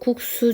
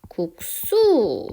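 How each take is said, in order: First: The second syllable starts with a plain s. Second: The second syllable starts with a tense s. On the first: The speaker calls it wrong. "이거 국수 좀 먹어 라고 하는 사람 없죠?" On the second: The speaker calls it right. "시옷이 쌍시옷으로 이렇게 바뀌었어요"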